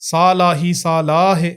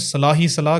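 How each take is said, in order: First: The first vowel of each word is long. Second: The first vowel of each word is short. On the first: The speaker calls it right. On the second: The speaker calls it wrong.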